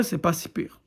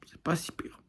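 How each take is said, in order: First: Said in the usual way. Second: Much softer, whispered repeat; muttered aside. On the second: Real, not acted. Vlogger grudgingly conceding to viewers the series is okay, whispered aside. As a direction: whisper it as an afterthought. Same verdict repeated under breath.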